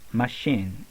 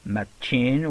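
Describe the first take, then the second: First: The middle consonant is an sh sound. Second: The middle consonant is a ch sound. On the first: The speaker calls it right. "we say machine" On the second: The speaker calls it wrong. "We don't say also machine"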